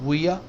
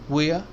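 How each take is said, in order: The two takes are said the same way.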